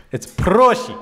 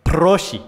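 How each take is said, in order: First: Heavy Russian accent, higher and louder; thick Russian accent. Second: Said in the usual way. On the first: Shown as a demonstration. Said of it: "with a thick Russian accent".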